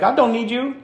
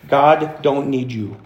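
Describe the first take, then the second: First: It is said in a sassy Valley Girl voice. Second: It is said in his plain, normal voice.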